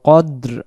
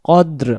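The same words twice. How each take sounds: No difference in how they are said.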